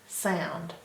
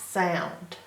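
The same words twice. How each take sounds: The two takes are said the same way.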